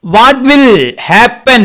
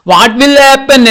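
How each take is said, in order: First: Slow, drawn-out reading question; slow storytime question. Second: Pitched higher, slow and wondering; high, slow storytime wonder; higher curious question. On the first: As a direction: stretch each word for the children. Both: Shown as a demonstration.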